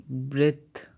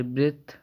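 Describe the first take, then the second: First: ब्रेथ said as bret, plain t; a slip, ending on a hard t; wrong take. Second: Fix it, soften the final th; corrected take. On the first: (ब्रेथ को गलती से ब्रेट बोलिए) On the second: (ब्रेथ को सुधारकर, नरम थ से बोलिए) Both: Shown as a demonstration. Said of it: "sorry, ब्रेथ".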